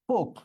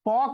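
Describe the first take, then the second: First: The vowel is closed, like 'oh'. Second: The vowel is open, like 'aw'. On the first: The speaker calls it right. "এটা আমাকে বলতে হবে পোক" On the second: The speaker calls it wrong. "এটা আমি পক বলতে পারবো না"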